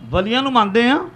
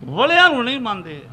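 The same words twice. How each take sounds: First: ਵਲੀਆਂ with a long ee, rising to the end; ਵਲੀਆਂ affirmed with an upward tune; contrast on ਵਲੀਆਂ. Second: ਵਲਿਆਂ with a short vowel, punched then falling; ਵਲਿਆਂ stressed as the rejected word. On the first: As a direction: lift the phrase after ਵਲੀਆਂ as if awaiting its opposite. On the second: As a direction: knock down ਵਲਿਆਂ with a closing fall. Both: Shown as a demonstration. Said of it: "ਵਲੇ ਉਹਨੂੰ ਕਹਿੰਦੇ ਨੇ".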